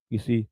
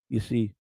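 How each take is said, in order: Both takes have the same delivery.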